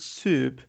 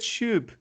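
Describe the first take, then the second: First: The word begins with an s sound. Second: The word begins with an sh sound. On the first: The speaker calls it right. "I teach the word soup" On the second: The speaker calls it wrong. "They insist on pronouncing it as shoop"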